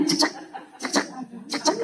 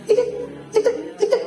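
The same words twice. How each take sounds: First: Short clipped beeps of a heart monitor. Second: Very high squeaky cek cek, like an ECG blip; high heart monitor beeps. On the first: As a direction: tap out each cek like a monitor blip. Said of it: "Harus seperti detektor jantung". (bunyi cek cek monitor jantung) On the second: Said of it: "E K G ya?". (bunyi monitor jantung melengking tinggi) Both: Shown as a demonstration.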